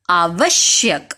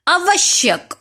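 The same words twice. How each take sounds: First: आवश्यक said slowly and low, spelled out; teacher modelling आवश्यक carefully and slowly; correct pronunciation. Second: आवश्यक said high as the common mistake; teacher mimicking pupils saying आवश्यक wrong, pitched up; wrong pronunciation. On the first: Teacher shows the class the right way, slowly. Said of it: "शुद्ध शब्द क्या है". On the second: शिक्षक बच्चों की गलत आवाज़ में आवश्यक बोलती है. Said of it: "आवश्यक अशुद्ध शब्द है". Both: Shown as a demonstration.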